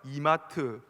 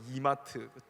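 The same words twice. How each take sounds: First: It is said with a Busan dialect pitch pattern. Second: It is said with a Seoul pitch pattern. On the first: "서울 사람들은 이마트라고 안 부르고" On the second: "이마트라고 부르더라고요"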